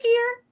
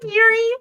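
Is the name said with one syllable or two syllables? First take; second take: one; two. First: The name is said as one syllable. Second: The name is said as two syllables. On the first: The speaker calls it right. "It's Richard Gere" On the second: The speaker calls it wrong. "not Geary"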